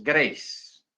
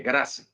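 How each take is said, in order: First: Grace said the English way, one syllable, greis; English pronunciation. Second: Grace read the Spanish way as two syllables, gra-se; spelled-out reading. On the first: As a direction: say Grace as English speakers do, rhyming with race. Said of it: "la pronunciación en inglés es". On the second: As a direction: sound out Grace letter by letter, gra-se, as it is written. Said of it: "Así se escribe generalmente". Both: Shown as a demonstration.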